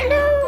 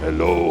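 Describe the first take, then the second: First: It is said in a high, childlike voice. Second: It is said in a low, big voice. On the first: It is the voice of a child. "High tone, yung talagang boses ng bata" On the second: It sounds scary. "yung malaki, kapag yung sa low tone"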